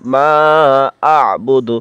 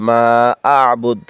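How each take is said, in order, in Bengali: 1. শব্দটি হ্রস্ব স্বরধ্বনি দিয়ে শেষ হয়। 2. শব্দটি সাকিন ব্যঞ্জন দিয়ে শেষ হয়।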